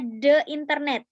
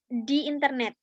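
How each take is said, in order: First: THE said "duh" before internet; unstressed schwa in "the", as in "duh". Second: THE said "dee" before internet; long ee in "di", rhyming with "see". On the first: Article said, then corrected before vowel. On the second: Article re-said as "di" before vowel. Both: Shown as a demonstration.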